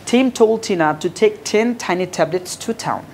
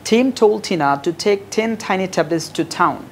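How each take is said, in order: The two takes are said the same way.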